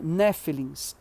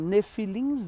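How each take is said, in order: First: The stress is on the first syllable. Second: The stress is on the last syllable. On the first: The speaker calls it right. "A pronúncia correta seria Néfilins" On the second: The speaker calls it wrong. "Alguns dizem nefilins"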